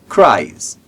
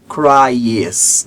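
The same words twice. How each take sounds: First: The word is said as a single syllable. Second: The final e is sounded as a second syllable. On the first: The speaker calls it right. "Percebe que eu não falo o E?" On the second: The speaker calls it wrong. "Não falo cries"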